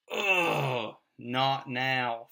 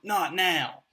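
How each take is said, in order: First: Loud groaning "Ugh", then a tight "not now"; exasperated groan. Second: Loud high snapped "Not now" with a falling end; sharp snap. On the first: Parent's inner groan when the kids burst in, exasperated. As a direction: let the frustration out on "Ugh" before "not now". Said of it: "that familiar chest-tightening". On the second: Father snapping "Not now" at his kids, loud and sharp. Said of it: "respond in a sharp tone". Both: Retold or imitated.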